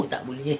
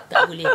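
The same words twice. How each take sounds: First: Said in the usual way. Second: Said through a burst of laughter; laughing. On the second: Shown as a demonstration. Teacher repeating the rule to a listener, laughing. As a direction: laugh it out while forbidding.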